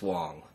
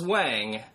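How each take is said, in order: First: The vowel is rounded, like 'wong'. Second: The vowel is open, like 'wahng'. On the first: This is how the name is really pronounced. The speaker calls it right. "he's Wong" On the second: This is the common mistaken reading of the name. The speaker calls it wrong. "if you thought he was Wang"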